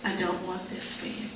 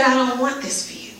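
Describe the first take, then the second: First: Hushed, tender plea; soft divine plea. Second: Gentle pleading, a bit higher. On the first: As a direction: say it softly, like a loving father. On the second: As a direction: plead tenderly, almost begging. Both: Retold or imitated. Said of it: "he was pleading with me".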